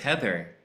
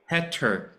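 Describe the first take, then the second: First: The middle sound is a clear 'th'. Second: The middle sound is a plain 't'. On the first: "My first girlfriend was Heather" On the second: "or Heter to me"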